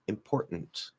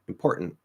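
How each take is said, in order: First: The middle T is stopped; the final T is released. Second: Both the middle and final T are stopped. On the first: "you can maybe do that and still pronounce the last T" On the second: "So you can stop both T's"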